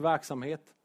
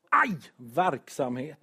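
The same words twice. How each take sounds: First: Said in the usual way. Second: "verksamhet" said slowly as "värk-samhet", an Ä for the E so it sounds like pain; pun on Ä for E. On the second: Shown as a demonstration. Preacher joking to the church that busyness hurts, slow "verksamhet" with Ä. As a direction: drag out "verksamhet" with Ä, "värk", like an ache. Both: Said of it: "man kan byta ut E mot Ä".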